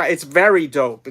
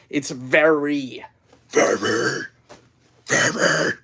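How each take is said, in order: First: Said in the usual way. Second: "very" repeated, drawn out and fading to a breath; stressing very. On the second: Shown as a demonstration. Streamer insisting to chat it's not kind of, stressing "very". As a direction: lean on "very" again and again as it trails off. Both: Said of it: "It's not even kind of".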